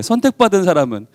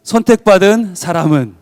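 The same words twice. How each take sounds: First: Said in the usual way. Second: Shouted title. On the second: Shown as a demonstration. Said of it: "제목 외쳐보겠습니다".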